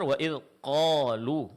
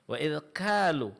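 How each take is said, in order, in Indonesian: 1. Kata terakhir dimulai dengan q yang tebal. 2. Kata terakhir dimulai dengan k yang berhembus. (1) "hurufnya ditebalkan dan tidak mengeluarkan angin" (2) "disertai keluarnya angin, dia akan berubah menjadi huruf kaf"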